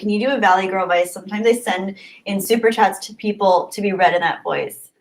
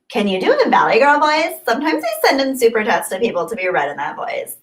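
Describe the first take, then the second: First: It is read in his normal voice. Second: It is read in a Valley Girl voice.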